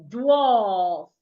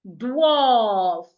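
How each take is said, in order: The two takes are said the same way.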